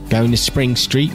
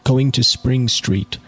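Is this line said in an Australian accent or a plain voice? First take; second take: Australian; plain. First: It is said in an attempted Australian accent. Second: It is read in the reader's ordinary accent.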